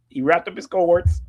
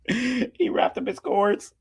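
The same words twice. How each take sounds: First: Said in the usual way. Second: Slow and high, laughing through it; fighting back laughter. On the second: Real, not acted.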